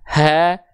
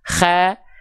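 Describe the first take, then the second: First: A plain, ordinary breath from low in the throat. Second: A raspy, snore-like friction high in the throat. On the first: "terlalu ke bawah ... jadinya hak besar. Dia punya karakteristik nafas yang biasa" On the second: "terlalu ke atas ... jadinya huruf kho ... seperti nafas dengkurannya"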